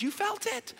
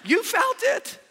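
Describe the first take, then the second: First: Said in the usual way. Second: Loud, high exclamation; fervent preacher's cry; shouted. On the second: Acted. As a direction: shout it out, much higher.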